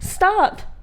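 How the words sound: It is said gently and politely.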